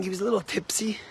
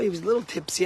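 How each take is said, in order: First: A hushed, confiding aside; whispered aside. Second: Said in the usual way. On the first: Retold or imitated. To the congregation about the tipsy donor, whispered. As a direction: whisper it like a secret.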